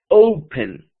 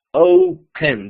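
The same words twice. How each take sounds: First: Said in the usual way. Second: "open" separado en "o ... pen", con la primera fuerte; dividido en sílabas. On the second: Shown as a demonstration. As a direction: silabear "open" en dos golpes claros. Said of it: "dos sílabas". ("open" lento, alargando la "o" antes de "pen")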